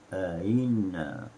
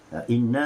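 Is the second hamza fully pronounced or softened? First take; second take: softened; fully pronounced. First: The second glottal stop is softened. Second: Both glottal stops are pronounced fully. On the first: This is the Ibn Kathir reading. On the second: This is the usual Hafs reading.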